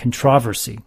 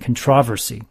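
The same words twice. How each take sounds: First: The word is said the British way. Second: The word is said the British way.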